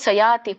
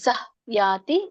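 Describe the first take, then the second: First: The two words run together with no h. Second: A light h sound separates the two words. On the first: The speaker calls it wrong. "ಸಯಾತಿ ಕೂಡ್ಸ್ಬೇಡಿ" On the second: The speaker calls it right. "ಅಲ್ಲಿ ನಾವು ಸ್ವಲ್ಪ ಹ ಉಚ್ಚಾರಣೆ ಮಾಡ್ತೇವೆ"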